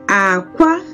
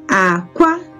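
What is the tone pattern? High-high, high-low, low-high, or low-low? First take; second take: low-high; low-high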